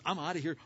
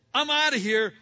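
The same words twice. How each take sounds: First: Said in the usual way. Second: Loud, high burst: "I'm outta here."; fleeing Joseph blurts it out, loud and high; loud exclamation. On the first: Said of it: "he goes". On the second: Retold or imitated. Joseph fleeing the wife, loud high exclamation.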